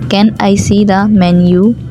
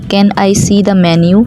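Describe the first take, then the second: First: It is spoken slowly. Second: It is spoken at a normal speed.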